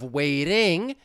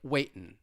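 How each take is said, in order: First: It ends in -ing with a flap T. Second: It ends in -in with a glottal stop. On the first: "instead of waiting" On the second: "it may sound like waitin'"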